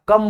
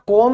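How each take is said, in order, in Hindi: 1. स्वर 'uh' जैसा बोला जाता है। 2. स्वर 'oh' जैसा बोला जाता है। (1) "कम बोला जाता है" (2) "यहां कोम नहीं बोला जाता"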